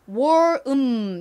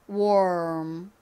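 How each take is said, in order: First: The m is said apart from war. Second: The m flows straight on from war. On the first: The speaker calls it wrong. "war 음 요렇게 하시면 안 되고요" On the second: The speaker calls it right. "war 소리를 내면서 바로 자연스럽게 음 요렇게 입 모양을 바꿔주셔야 됩니다"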